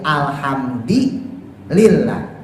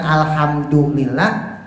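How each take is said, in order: First: The d is followed by an i vowel. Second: The d is followed by a u vowel. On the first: "dengan mengucapkan kasroh dalnya"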